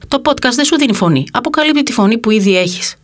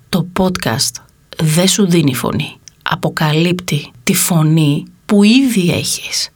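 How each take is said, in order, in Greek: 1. Η πρόταση λέγεται γρήγορα. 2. Η πρόταση λέγεται πολύ αργά. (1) "Πρώτα θα την πω γρήγορα" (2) "Και τώρα την πω πολύ αργά"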